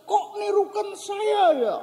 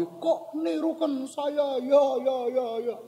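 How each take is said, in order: First: Put-on very high kid's protest; high-pitched imitated kid's complaint; child calling out. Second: High, slow echo with repeats dying away; drawn-out echoing call, trailing off; echo answering back. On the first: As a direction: imitate a puzzled child calling across a ravine. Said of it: "Eh, terus dia ngomong". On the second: Retold or imitated. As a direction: imitate a ravine echo, stretched and fading. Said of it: "Terus dijawab lagi".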